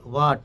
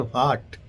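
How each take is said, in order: First: The word is said without a breathy h. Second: The word is said with a breathy h. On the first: This is how local speakers say it. "You say what" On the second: This is how North Indian speakers say it. "They give impression for that H"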